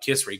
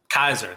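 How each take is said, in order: First: The name is not said as 'Kaiser'. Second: The name is said as 'Kaiser'. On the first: The speaker calls it wrong. "Her name is not pronounced like that" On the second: The speaker calls it right. "It is pronounced Kaiser"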